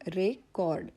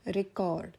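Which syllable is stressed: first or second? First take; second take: first; first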